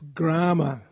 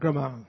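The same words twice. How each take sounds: First: The diacritic sound in the word is pronounced. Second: The diacritic sound in the word is dropped. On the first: The speaker calls it right. "it's Grama. You have to pronounce the diacritics properly" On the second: The speaker calls it wrong. "It's not Grama"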